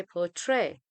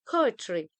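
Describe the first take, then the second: First: "poetry" with the weight moved onto TRY, sounded like "tray"; "poetry" wrongly stressed on its final syllable; stress on last syllable. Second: "poetry" with a strong PO and a light ending; "poetry" stressed on PO, falling away after; stress on first syllable. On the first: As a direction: say poeTRY, leaning on the end. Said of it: "but we don't say". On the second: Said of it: "That's why we say". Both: Shown as a demonstration.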